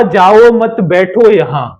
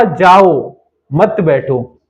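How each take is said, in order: First: No break after "जाओ", run it straight into "मत बैठो"; run-together phrasing. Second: Slow "जाओ", a long break, then "मत बैठो" together; pause after जाओ. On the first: Teacher giving the class what was said, slow connected phrasing. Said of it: "बोलना कुछ और चाह रहा है". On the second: Teacher showing what the listener misheard, long pause after "जाओ". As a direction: split off "जाओ" and group "मत" with "बैठो". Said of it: "मैंने सुना". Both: Shown as a demonstration.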